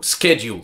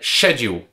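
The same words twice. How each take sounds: First: It is said in a North American pronunciation. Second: It is said in a British-style pronunciation.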